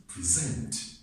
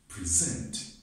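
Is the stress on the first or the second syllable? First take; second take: second; second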